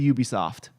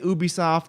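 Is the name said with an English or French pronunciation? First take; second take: English; French. First: The name is said with an English pronunciation. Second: The name is said with a French pronunciation. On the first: This is the form used elsewhere in the world. "anywhere else in the world, I'll say Ubisoft" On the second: This is the form used in France. "if it's in France, I'll say Ubisoft"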